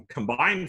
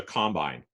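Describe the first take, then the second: First: "combine" as com-BINE; second-syllable stress. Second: "combine" as COM-bine; first-syllable stress. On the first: Lecturer showing the verb for joining things, end-stressed "combine". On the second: Lecturer naming the farmer's machine, front-stressed "combine". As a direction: stress the start of "combine", as the noun. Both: Shown as a demonstration. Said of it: "where you put the emphasis".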